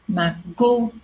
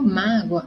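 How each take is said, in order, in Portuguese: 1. A tônica está na segunda sílaba. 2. A tônica está na primeira sílaba. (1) "então vai ser o go" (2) "a minha sílaba tônica é o má"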